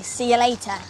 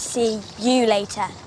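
First: The phrase is said quickly and casually. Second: The phrase is drawn out slowly and meaningfully. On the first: It is just an ordinary goodbye. "he would just say see you later" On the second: The words carry a special, romantic meaning. "He wouldn't say see you later slowly, unless he means see you later"

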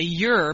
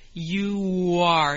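First: It is contracted into one syllable. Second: Two syllables joined by a gliding w sound. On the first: "You can contract it and say you're" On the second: "you can also say you are, Hear that W?"

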